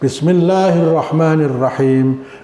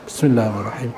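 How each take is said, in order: First: The phrase is said loudly and clearly aloud. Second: The phrase is said quietly, almost under the breath. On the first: The opening formula is recited aloud in the prayer. "wajib dibaca keras" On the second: The opening formula is recited silently in the prayer. "tapi Bismillahnya dibaca pelan"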